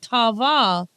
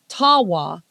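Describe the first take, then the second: First: The middle consonant is a V sound. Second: The middle consonant is a W sound. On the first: The speaker calls it wrong. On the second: The speaker calls it right.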